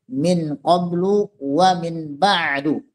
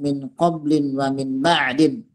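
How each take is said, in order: First: Both words end with a 'u' sound. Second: Both words end with an 'in' sound. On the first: The words are fixed in the u ending, with the omitted possessor still meant. "'ala ad-dhammi" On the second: The words are read in the genitive with nunation. "bil hamdi wat tanwin"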